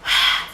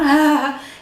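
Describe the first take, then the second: First: A strong, pushed flow of breath. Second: A light, soft h breath. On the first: The speaker calls it right. "You just push air outside your mouth. Vocal cords are not vibrating" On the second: The speaker calls it wrong. "It's not ha"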